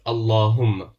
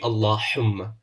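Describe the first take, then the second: First: The h sound is light and unemphasized. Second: The h sound is strongly emphasized. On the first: The speaker calls it right. "you don't need to put any emphasis on it" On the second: The speaker calls it wrong. "It won't be Allahumma. You do not stress on it"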